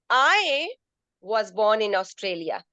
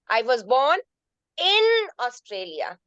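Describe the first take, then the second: First: The stress falls on the word I. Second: The stress falls on the word in. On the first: Another person was born somewhere else. "First sentence I put I stressed on I" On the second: It was inside the country, not outside it. "That means in Australia, not outside Australia"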